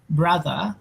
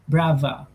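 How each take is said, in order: First: The middle consonant is a th sound. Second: The middle consonant is a v sound. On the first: "they don't say brother" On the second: "in Cockney accent, they say brava"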